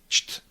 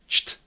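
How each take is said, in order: The two takes are said the same way.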